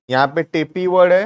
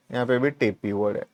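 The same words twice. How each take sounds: First: Said in the usual way. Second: Quick soft repeat. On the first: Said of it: "points out common word". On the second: Shown as a demonstration. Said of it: "quick soft repeat".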